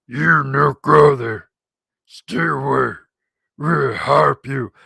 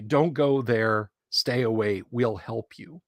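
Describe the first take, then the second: First: Slow, loud mangled goblin voice; hammed-up creature pidgin; funny goblin voice. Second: Said in the usual way. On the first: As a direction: bark out broken English like a goblin. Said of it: "he puts on this funny voice". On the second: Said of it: "It was really mangled".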